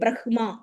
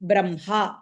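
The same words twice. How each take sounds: First: The h sound comes before the m. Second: The m sound comes before the h. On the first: The speaker calls it wrong. "You don't say Brahma" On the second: The speaker calls it right. "you pronounce bra, im, ha"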